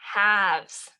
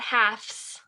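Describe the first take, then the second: First: The consonant before the s is a v sound. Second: The consonant before the s is an f sound. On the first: The speaker calls it right. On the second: The speaker calls it wrong.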